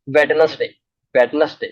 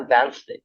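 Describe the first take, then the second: First: वेडनेसडे said with every letter sounded, Wed-nes-day; common mispronunciation. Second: वेडनेसडे said as Wenz-day, silent d; correct pronunciation. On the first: Teacher showing students the wrong वेडनेसडे. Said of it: "लोग क्या बोलते हैं पता है?". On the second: Teacher giving the class the right वेडनेसडे. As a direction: say वेडनेसडे short, as Wenzday. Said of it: "क्या होता है?". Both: Shown as a demonstration.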